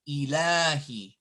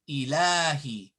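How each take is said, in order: No difference in how they are said.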